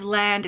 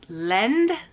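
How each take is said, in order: First: The vowel sounds like the a in 'land'. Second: The vowel sounds like the e in 'lend'. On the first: The speaker calls it wrong. "because in English, that's how I would read that" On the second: The speaker calls it right. "it's lend"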